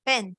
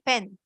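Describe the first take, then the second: First: The vowel is short and quick, reduced. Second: The same.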